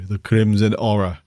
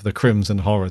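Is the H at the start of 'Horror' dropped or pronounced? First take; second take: dropped; pronounced. First: The H in horror is dropped, Yorkshire style. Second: The H in horror is clearly pronounced.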